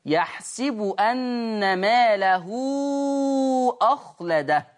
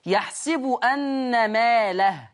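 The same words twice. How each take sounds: First: Slow recitation that joins "ماله" to "أخلده", lengthening the ha into "مالَهُو"; connected recitation. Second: Slow recitation, stopping on "ماله" with a silent final h. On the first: Teacher showing students the join, reciting "ماله" with a long oo on the ha. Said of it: "لو أنت وصلتها بأخلده". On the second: Teacher showing students the pause, ending "ماله" on a silent ha. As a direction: say "يحسب أن ماله" slowly and pause on "ماله", with the ha kept still. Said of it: "لو أنا وقفت عليها هسكن اله". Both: Shown as a demonstration.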